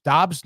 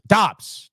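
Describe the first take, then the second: First: Doubting question. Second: Confident guess. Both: Real, not acted. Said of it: "No, it's not Dobbs".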